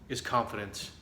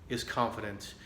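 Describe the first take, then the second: The two takes are said the same way.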